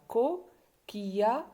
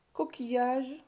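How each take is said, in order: First: Slow "Coquillage" in three beats, co... quilla... ge; pauses inside "Coquillage", final "ge" fully voiced; split into syllables. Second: Said in the usual way. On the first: Shown as a demonstration. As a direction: sound out "Coquillage" piece by piece. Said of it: "trois syllabes". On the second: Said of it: "combien de syllabes on a trouvé".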